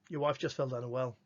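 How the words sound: It is said as a flat statement.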